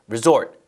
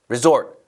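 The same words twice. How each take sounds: The two takes are said the same way.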